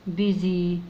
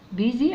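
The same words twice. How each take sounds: First: بيزي said slowly and clearly; careful teacher reading of بيزي; sounding it out. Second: بيزي said quickly with a rising end; بيزي tossed off with a rise; quick read. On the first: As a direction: read بيزي out for the child. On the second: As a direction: read بيزي out again, brisker. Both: Shown as a demonstration. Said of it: "تعالوا ننطقها كده".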